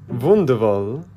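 The word is spoken with a German accent.

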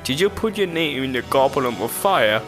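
The question is asked in a calm voice.

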